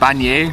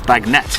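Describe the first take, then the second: First: The word ends with a 'nay' sound. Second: The word ends with a 'net' sound. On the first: The speaker calls it wrong. "I was saying this wrong the whole time" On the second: The speaker calls it right. "it's bagnette"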